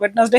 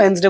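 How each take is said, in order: First: "वेडनेसडे" as wed-nes-day, d sounded; three-syllable wed-nes-day for "वेडनेसडे"; everyday mispronunciation. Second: "वेडनेसडे" as wens-day, d silent; two-syllable wenz-day for "वेडनेसडे"; correct pronunciation. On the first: Teacher admitting what we say among friends, "वेडनेसडे" said wed-nes-day. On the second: Teacher saying friends never use this form, "वेडनेसडे" pronounced wens-day. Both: Shown as a demonstration. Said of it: "हम खुद ही गलत सलत बोलते रहते हैं".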